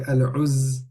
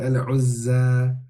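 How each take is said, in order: First: The word ends abruptly without the final vowel. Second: The final vowel is held for two counts. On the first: The speaker calls it wrong. "we don't say al-uzz" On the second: The speaker calls it right. "we have to say al-uzza"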